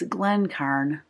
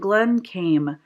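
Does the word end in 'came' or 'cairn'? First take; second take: cairn; came. First: The word ends with an R-N sound, 'cairn'. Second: The word ends with an M sound, 'came'. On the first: The speaker calls it right. "it's Glencairn glass" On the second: The speaker calls it wrong. "I was saying Glencame"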